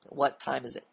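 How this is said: The voice falls at the end, like a statement. The speaker is confident and has direction. The speaker calls it right. "you make a statement"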